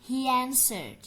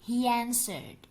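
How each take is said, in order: The two takes are said the same way.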